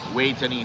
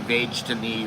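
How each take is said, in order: First: The name begins with a W sound. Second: The name begins with a V sound. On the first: This is how it is said locally. "you say it with a W in Thailand" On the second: This is how an English speaker reads the spelling. "in English you might say"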